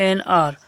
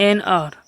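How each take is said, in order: No difference in how they are said.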